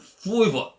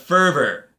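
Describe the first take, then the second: First: It is said without the R, New York style. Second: It is said with the R pronounced.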